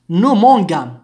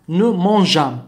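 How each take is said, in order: First: MANGONS with a hard g as in "go". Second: MANGEONS with a soft "zh" sound for the g. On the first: Teacher shows the error without e, hard g in mangons. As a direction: say "mangons" with a hard "ga" sound, louder. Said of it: "si on n'ajoute pas أو ici". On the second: Teacher shows the e softening mangeons, soft g. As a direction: say "mangeons" with g as French j. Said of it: "إذا أردناها أن تنطق جي". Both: Shown as a demonstration.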